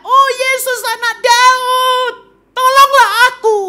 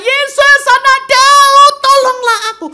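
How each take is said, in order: First: Very high, drawn-out cry for help; desperate shout. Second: Full-throated, very high, drawn-out holler; even louder shout. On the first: Blind Bartimaeus calling Jesus for help, shouting at full voice. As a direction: holler it slowly across a crowd. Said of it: "dia teriak". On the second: Blind beggar defying the crowd to reach Jesus, bellowing. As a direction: cry for help at the top of your voice. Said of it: "Tapi dia tambah kenceng". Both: Acted.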